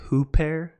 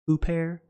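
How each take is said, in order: First: It is said in the Erasmian pronunciation. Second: The same.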